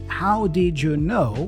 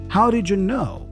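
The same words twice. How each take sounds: First: The d and y are said as separate sounds. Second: The d and y blend into a j sound.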